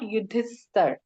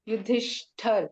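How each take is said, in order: First: The middle consonant is a plain s sound. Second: The middle consonant is an sh sound. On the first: The speaker calls it wrong. "not Yudhisthar" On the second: The speaker calls it right. "pronunciation becomes like sh"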